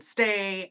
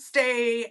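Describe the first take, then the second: First: The word is said softly. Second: The word is said loudly and firmly.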